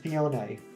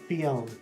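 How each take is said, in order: First: The final E is pronounced as a vowel. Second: The final E is silent. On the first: The speaker calls it right. "but apparently it's Fione" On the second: The speaker calls it wrong. "I just left the E alone. Just let it be like, you know, a regular E at the end of a word"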